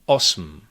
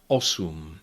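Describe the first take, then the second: First: The m forms its own syllable, no vowel. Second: A u vowel is inserted before the m. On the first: It sounds very formal. "very formal pronunciation" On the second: It is the everyday way people say it. "normally you would hear people say"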